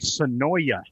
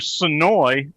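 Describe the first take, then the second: First: The name ends with an 'oya' sound. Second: The name ends with an 'oy' sound. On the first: The speaker calls it wrong. "they say Sonoya, and I'm like, nah" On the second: The speaker calls it right. "it's either Sonoy, the town"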